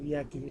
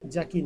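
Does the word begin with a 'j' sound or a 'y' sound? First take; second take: y sound; j sound. First: The word begins with a 'y' sound. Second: The word begins with a 'j' sound. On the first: The speaker calls it right. "হ্যাঁ জের উচ্চারণটা ইয়া" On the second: The speaker calls it wrong. "জাকি না কিন্তু"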